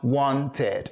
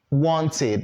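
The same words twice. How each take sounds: First: "wanted" ending in "ted", with an open e; mispronounced -ed ending. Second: "wanted" ending in a clear "id"; correct -id ending. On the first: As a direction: demonstrate the mistake "wanted" as WON-ted. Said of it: "not wanted". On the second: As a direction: model "wanted" as WON-tid. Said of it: "so it's gonna sound". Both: Shown as a demonstration.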